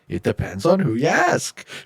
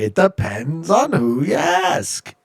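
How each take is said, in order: First: It is said with little or no accent. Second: It is said with a strong put-on accent.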